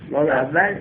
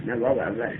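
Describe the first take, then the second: First: واو اول؟ asked with a rising tune; واو اول؟ tossed out as a guess; questioning guess. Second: واو اول said lower and softer with a falling tune; quietly correcting to واو اول; firm correction. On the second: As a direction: settle it with واو اول dropping low. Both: Shown as a demonstration.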